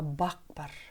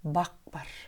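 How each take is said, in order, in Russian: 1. Второе слово начинается с глухого П. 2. Второе слово начинается с глухого П.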